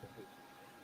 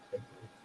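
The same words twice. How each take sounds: First: Breathy whisper, almost silent. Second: Low murmur to himself, barely voiced; mumbling a name while thinking; quiet mutter. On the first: Retold or imitated. Shop owner whispering the name while searching his stock, whispered. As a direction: whisper the name as you think. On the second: Shop owner murmuring the name while searching his stock, softly.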